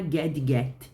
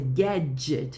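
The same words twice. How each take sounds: First: The d and g sounds are said separately. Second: The d and g sounds merge into one. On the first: The speaker calls it wrong. "não é gadget" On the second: The speaker calls it right. "você vai juntar os dois"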